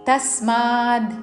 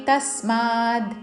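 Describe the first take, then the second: Both takes have the same delivery.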